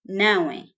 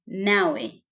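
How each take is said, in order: First: It is said as one contracted word. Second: It is said as one contracted word.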